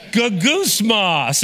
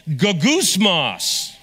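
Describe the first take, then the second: First: Gogusmos again slowly, go-GOOS-mos with a hard g; Greek word gogusmos. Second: Gogusmos said slowly, go-GOOS-mos with stress on goos; Greek word gogusmos. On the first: Preacher leading the congregation through the Greek word, slow. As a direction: gogusmos spelled out in sound for the crowd. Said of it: "Say that with me". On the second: Preacher teaching the congregation the Greek word, slow. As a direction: gogusmos drawn out syllable by syllable. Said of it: "If you think you can pronounce it". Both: Shown as a demonstration.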